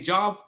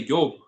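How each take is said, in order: First: The word begins with a J sound. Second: The word begins with a Y sound.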